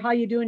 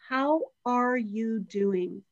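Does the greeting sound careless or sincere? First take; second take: careless; sincere. First: It is said in a careless, passing way. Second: It is said in a sincere, attentive way.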